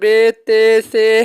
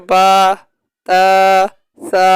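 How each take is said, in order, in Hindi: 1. अक्षरों के नाम 'e' स्वर पर ख़त्म होते हैं। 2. अक्षरों के नाम 'a' स्वर पर ख़त्म होते हैं। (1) "उर्दू तलफ़ुज़ में पढ़ते हैं ... ऐसे में बिल्कुल नहीं पढ़ना" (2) "अरबी लहजा में अदा करना है, ऐसे पढ़ना"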